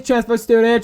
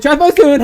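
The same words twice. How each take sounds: First: Said in the usual way. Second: Higher and louder, stress on Transfer; calling out louder. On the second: Acted. A classmate calling the new kid across the corridor, loud.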